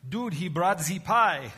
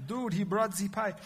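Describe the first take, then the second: First: Hammed-up German accent, slow and higher; mock German, dragging the words out; a bad fake German accent, said for laughs. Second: Put-on playful German accent, a touch higher; a bad fake German accent again. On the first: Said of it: "is that the worst German accent?". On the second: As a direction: redo the mock German line, lighter now. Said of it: "so that's the worst".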